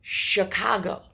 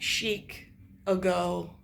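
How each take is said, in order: First: The word is said as one joined whole. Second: The word is split into two separate parts.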